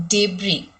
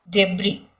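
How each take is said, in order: Both takes have the same delivery.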